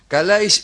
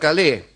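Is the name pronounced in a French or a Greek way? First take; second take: Greek; French. First: The name is pronounced the Greek way. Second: The name is pronounced the French way. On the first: The bearers of the name are Greek. The speaker calls it right. "Calais y no Calé, ya que son griegos" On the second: The bearers of the name would be French. The speaker calls it wrong. "y no franceses"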